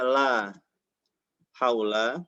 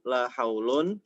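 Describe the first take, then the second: First: The second word ends with a short a. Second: The second word ends with un. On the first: The noun is indeclinable, taking the fatha ending. "Kalau haula di sini berarti dia mabni" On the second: The noun is read in the nominative case. "Boleh dibaca ar-rafa"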